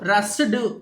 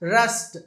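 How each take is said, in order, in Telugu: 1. ఈ పదం d శబ్దంతో ముగుస్తుంది. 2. ఈ పదం t శబ్దంతో ముగుస్తుంది. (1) "రస్డ్ అనకూడదు" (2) "ఈ డీని టీ లాగా చెప్పాలి"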